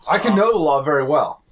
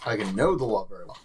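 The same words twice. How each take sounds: First: Said in the usual way. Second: Lower, softer aside; lowered-voice repeat. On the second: Acted. Player repeats his claim about knowing the law, lowered voice. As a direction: repeat it low and under the voice.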